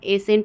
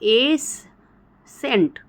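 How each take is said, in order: First: The c is silent, leaving one s sound. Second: The c is sounded as a separate s. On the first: The speaker calls it right. "एसेंट बस हम उच्चारण करें, सी को हम silent कर दे रहे हैं।" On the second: The speaker calls it wrong. "तो ऐसे देखें तो एस सेंट, ... लेकिन ऐसा कुछ नहीं हो रहा है।"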